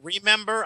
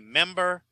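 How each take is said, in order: First: All three syllables are pronounced. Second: The first syllable is dropped. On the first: "Instead of saying" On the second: "I say member"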